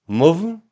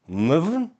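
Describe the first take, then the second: First: The name is short, reduced and mushy. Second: The same.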